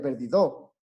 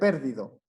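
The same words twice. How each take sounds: First: The stress is on the last syllable. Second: The stress is on the first syllable. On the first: "si fuera per- en do, sería perdido" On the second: "si fuera en per, por ejemplo, sería perdido"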